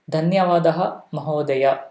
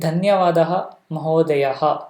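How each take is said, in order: First: The last word ends plainly on a vowel. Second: The last word ends with an added breathy 'ha'. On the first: The speaker calls it right. "The Visarga will not come" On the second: The speaker calls it wrong. "that is also wrong form"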